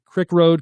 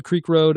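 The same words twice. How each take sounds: First: "Crick" with a short i as in kick; crick pronunciation. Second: "Creek" with a long ee as in seek; creek pronunciation. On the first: Demonstrating the local name of the road to viewers, said as "Crick" with a short i. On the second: Demonstrating the other name of the road to viewers, said as "Creek" with a long ee. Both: Shown as a demonstration. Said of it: "go back and forth between crick and creek".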